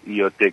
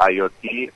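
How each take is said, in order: First: "I O T" said as Spanish letter names, ee-oh-teh; "I O T" in everyday Spanish letters; Spanish pronunciation. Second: "I O T" said as English letter names, eye-oh-tee; "I O T" in English letters, Spanish-speaker's delivery; English pronunciation. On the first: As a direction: spell out "I O T" the Spanish way. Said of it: "en inglés, este, tiene otra pronunciación". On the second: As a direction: spell out "I O T" the English way. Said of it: "es la pronunciación en inglés". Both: Shown as a demonstration.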